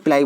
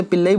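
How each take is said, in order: First: "पिलाई" as pi-LAA-ee; variant pronunciation. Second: "पिल्लई" ending in pil-LA-ee, short a; "पिल्लई" with no long aa before the final ee; variant pronunciation. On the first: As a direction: say "पिलाई" with a long "aa" before ee. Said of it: "पिलाई बोलते हैं". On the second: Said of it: "बोलते कुछ लोग". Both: Shown as a demonstration.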